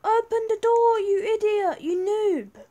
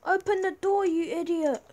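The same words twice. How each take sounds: First: High, loud furious shout; angry shout. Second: Higher, louder impatient yell; annoyed yell. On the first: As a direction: yell it at the guard, fed up. Yelling at guard louder. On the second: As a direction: shout at the guard to open up. Yelling at guard. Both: Real, not acted.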